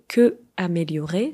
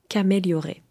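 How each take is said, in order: First: The vowel of que is fully pronounced. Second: The vowel of que is dropped and joined. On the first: "vous voyez que améliorer" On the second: "ça devient qu'améliorer. Comme ça, ça simplifie la prononciation"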